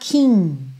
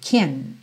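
First: The word is said softly, less crisp. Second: The word is said short and crisp. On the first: The speaker calls it wrong. "Cuidado para não falar kin" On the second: The speaker calls it right. "É um som um pouquinho mais seco"

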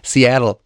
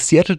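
First: The name is said the English way. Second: The name is said the usual German way. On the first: The speaker calls it right. "Ob der korrekten Aussprache. Richtig" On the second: The speaker calls it wrong. "was du gerade gesagt hast oder wie du es gesagt hast, dass es nicht Seattle heißt"

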